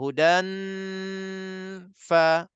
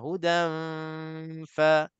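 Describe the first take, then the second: First: The nasal hum stops before the f starts. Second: The nasal hum flows straight into the f. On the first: The speaker calls it wrong. "Dia sampai sini je. ... Baru masuk fa. Itu cara ikhfa yang salah" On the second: The speaker calls it right. "Dengung dua harakat belum habis lagi. Tapi gigi kita dah sentuh bibir mulut bawah. ... Itu cara ikhfa"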